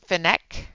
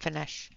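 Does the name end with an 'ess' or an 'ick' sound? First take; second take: ick; ess. First: The name ends with an 'ick' sound. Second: The name ends with an 'ess' sound. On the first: The speaker calls it right. "it's pronounced Finnick" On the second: The speaker calls it wrong. "not Finesse"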